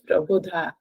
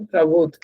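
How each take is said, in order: First: The word ends with a full 'dha' syllable. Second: The word ends with a bare 'dh' consonant. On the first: The speaker calls it right. "a pronunciation is Prabodha" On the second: The speaker calls it wrong. "that is not Prabodh"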